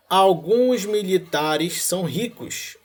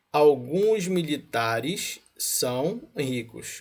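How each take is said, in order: First: Slow, drawn out, ending on a rise; slow rising read. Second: Slow, with "alguns" stressed and a falling end; slow settled reread. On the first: Teacher reads the premise to the class slowly, rising. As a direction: stretch "alguns" and lift the end. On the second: After catching himself, teacher rereads the premise slowly, falling. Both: Shown as a demonstration.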